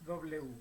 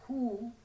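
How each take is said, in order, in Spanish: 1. Es un glide w corto. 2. Es una vocal oo completa y separada. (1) "sino estamos diciendo W" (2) "no estamos diciendo who"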